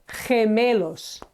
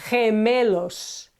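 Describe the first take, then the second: Both takes have the same delivery.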